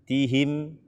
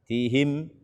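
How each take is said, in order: The two takes are said the same way.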